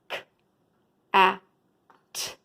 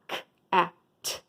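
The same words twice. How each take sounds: First: The sounds are said slowly, separated. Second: The sounds are said quickly together.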